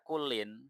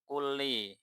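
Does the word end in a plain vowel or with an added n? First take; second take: added n; plain vowel. First: The word ends with an added n sound. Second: The word ends in a plain short i vowel. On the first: The word stands alone and does not yet explain anything. The speaker calls it wrong. "tidak dibaca kullin" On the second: The word is tied to the noun that follows it. The speaker calls it right. "maka harus kulli"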